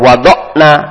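The sound is stopped short inside the word. The speaker calls it wrong. "jangan wawada'na dimatikan"

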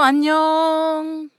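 It is said with a farewell intonation. It means goodbye. "Все зависит от интонации. ... Пока"

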